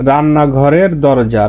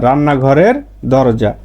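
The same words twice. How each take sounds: Both takes have the same delivery.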